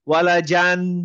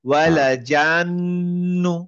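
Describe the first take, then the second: First: The final n is short, without a held nasal. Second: The final n is held with a long nasal hum. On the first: The speaker calls it wrong. "সাধারণত থেমে গেলে ওয়ালা জান এরকম" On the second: The speaker calls it right. "আমার উচ্চারণটা নেজাল হয়ে একটা আহ গুন্না হবে"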